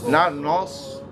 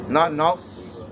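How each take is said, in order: No difference in how they are said.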